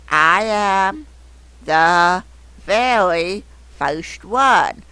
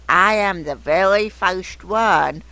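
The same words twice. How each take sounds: First: It is read with pauses between words. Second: It is read smoothly without breaks.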